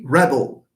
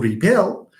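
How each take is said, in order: First: The stress is on the first syllable. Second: The stress is on the second syllable. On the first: It is a noun. "the person rebelling is called a rebel" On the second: It is a verb. "to rebel"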